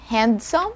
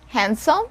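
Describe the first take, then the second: First: A D sound is heard in the middle. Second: No D sound is heard in the middle. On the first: The speaker calls it wrong. "So it's not handsome" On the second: The speaker calls it right. "We don't pronounce or we don't sound the letter D here"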